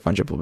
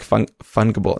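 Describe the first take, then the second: First: "fungible" with a soft g; "fungible" with g as in "gem". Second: "fungible" with a hard g; "fungible" with g as in "finger". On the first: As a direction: say "fungible" as FUN-juh-bul. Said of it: "I think I do like fungible better". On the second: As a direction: say "fungible" as FUN-guh-bul. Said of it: "I like fun-, fungible". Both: Shown as a demonstration.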